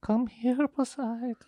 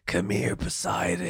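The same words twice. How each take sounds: First: High, soft spooky beckoning; eerie female voice. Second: Low, hushed beckoning voice; mysterious calling voice. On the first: Friend imitates the female voice luring the dreamer, high and eerie. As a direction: call softly from afar, pitched high. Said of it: "It was a female, but was it eerie?". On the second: Friend mimics the voice calling from the bedroom, low and hushed. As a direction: lure them in softly, starting low. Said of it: "A voice". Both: Acted.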